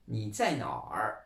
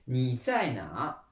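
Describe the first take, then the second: First: The last word ends with an added R sound. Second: The last word ends in a plain vowel.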